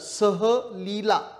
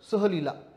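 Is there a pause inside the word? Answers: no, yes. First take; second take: yes; no. First: The word is said with a pause in the middle. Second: The word is said smoothly without any pause. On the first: It means going with Leela. "जर मी मध्येच विराम घेतला" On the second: It means going on a trip. "विराम न घेता जर मी बोललो"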